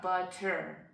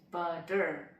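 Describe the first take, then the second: First: The middle consonant is a clear, crisp T. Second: The middle consonant is a soft D-like tap. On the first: The speaker calls it wrong. "it's not butter" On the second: The speaker calls it right. "As I said uh, earlier with the kettle"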